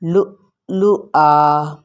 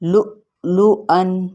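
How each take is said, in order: First: The word ends with a long a vowel. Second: The word ends with a short -an sound. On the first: The reader stops on this word. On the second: The reading continues without stopping.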